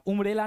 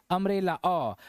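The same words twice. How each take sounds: First: उम्ब्रेला opened with an "oo" vowel; wrong pronunciation. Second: अम्ब्रेला with an "uh" start, then अ alone; correct pronunciation. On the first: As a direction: misread उम्ब्रेला starting with "oom". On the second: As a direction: say अम्ब्रेला beginning "uhm", then isolate the short अ. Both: Shown as a demonstration. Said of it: "उम्ब्रेला नहीं पढ़ते हैं इसको".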